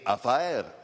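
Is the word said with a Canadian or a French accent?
Canadian. It is said with a Canadian French accent.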